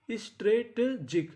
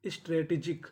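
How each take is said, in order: First: strategic said slowly, syllable by syllable, ending on a rise; slow, careful strategic for students to copy; slow model pronunciation. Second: Said in the usual way. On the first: Shown as a demonstration. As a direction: draw strategic out slowly for the class, lifting at the end. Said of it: "teacher models the new word". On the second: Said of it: "teacher repeats the word".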